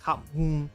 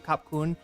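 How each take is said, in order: First: The second word begins with an m sound. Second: The second word begins with a k sound. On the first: "it's actually more like Kap Mun" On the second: "Is how most people will pronounce thank you"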